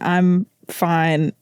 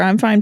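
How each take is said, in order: First: It is said in a sad, tearful voice. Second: It is said flatly with a firm, final ending. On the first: The speaker is upset but hiding it. "like wiping my tear away" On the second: The matter is closed. "I'm fine, period"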